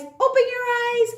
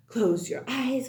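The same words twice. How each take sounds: First: Bright reveal. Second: Said in the usual way. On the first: Shown as a demonstration.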